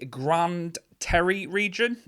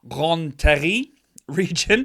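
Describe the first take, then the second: First: Grande Terre is said with an English accent. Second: Grande Terre is said with a French accent. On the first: The speaker calls it wrong. "I'm saying that awfully" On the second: The speaker calls it right. "let me put my French accent on"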